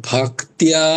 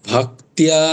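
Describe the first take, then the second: The two takes are said the same way.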